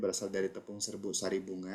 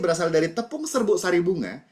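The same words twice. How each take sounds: First: The pitch stays on one flat level. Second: The pitch rises and falls with lively variation. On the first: The speaker calls it wrong. "kalau kita ngomong dalam satu tone, satu nada" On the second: The speaker calls it right. "ada saat agak dinaikkan, ada intonasinya agak diturunkan"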